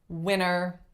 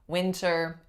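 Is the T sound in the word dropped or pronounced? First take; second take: dropped; pronounced. First: The T sound is left out completely. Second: The T sound is clearly pronounced. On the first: "no T at all" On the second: "It's not wrong to say the T"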